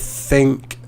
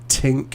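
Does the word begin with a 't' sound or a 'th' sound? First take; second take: th; t. First: The word begins with a soft 'th' sound. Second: The word begins with a hard 't' sound. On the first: The speaker calls it right. "instead of think" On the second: The speaker calls it wrong. "I heard tink a few times"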